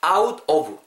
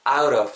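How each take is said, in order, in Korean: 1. 두 단어는 따로 발음해요. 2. 두 단어는 붙여서 발음해요.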